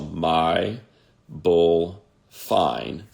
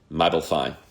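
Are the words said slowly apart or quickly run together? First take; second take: slowly apart; quickly together. First: The three words are said slowly and separately. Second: The three words are run together quickly. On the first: "Say the three words" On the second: "now say it quick"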